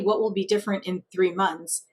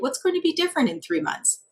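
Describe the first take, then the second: First: The question sounds challenging and confrontational. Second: The question sounds easy and lighthearted. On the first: The listener is being challenged. The speaker calls it wrong. "be a challenger and have somebody irritated with you" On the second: The speaker is offering help. The speaker calls it right. "the other one is lighthearted"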